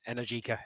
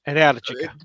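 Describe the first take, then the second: First: The stress is not on the second syllable. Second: The stress is on the second syllable. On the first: "the guys at uh, Energica U K say" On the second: "stress on the second syllable"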